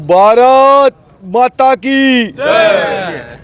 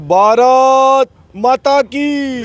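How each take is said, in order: First: It is spoken in a Haryanvi accent. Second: It is spoken in a standard Hindi accent.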